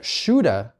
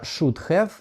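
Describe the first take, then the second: First: The words are reduced and run together. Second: Both words are said fully and clearly. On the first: This is how native speakers actually say it. "should have, которое вам сказали" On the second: This is how the learner expects it to sound. "Ваша should have, которая у вас в мозге есть"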